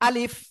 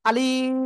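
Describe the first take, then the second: First: The word is said short and quick. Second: The vowel is stretched out long. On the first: The speaker calls it right. "দ্রুত পড়তে হবে এভাবে।" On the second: The speaker calls it wrong. "কোনো টান হবে না কিন্তু। যদি আপনি পড়েন আলিফ, হবে না।"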